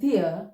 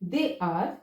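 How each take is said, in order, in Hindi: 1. इसे छोटा करके एक ही सिलेबल में बोला जाता है। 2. इसे दो पूरे शब्दों की तरह बोला जाता है।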